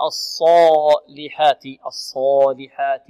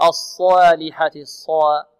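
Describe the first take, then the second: First: الصالحات slow, with a full heavy A after S; correct heavy A. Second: الصالحات with the heavy long A wrongly shaded; wrong vowel after S. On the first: Teacher correcting students, slow heavy A in الصالحات. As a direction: keep the long A dark in الصالحات. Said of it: "الألف التي بعد الصاد مفخمة". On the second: Teacher showing students the wrong long A in الصالحات. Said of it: "لا نقول". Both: Shown as a demonstration.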